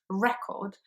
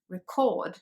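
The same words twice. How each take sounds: First: The stress is on the first syllable. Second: The stress is on the second syllable. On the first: It is a noun meaning a music disc. "the first syllable is the strong one" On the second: It is a verb meaning to register. "it's pronounced record"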